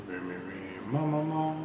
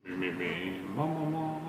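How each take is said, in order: No difference in how they are said.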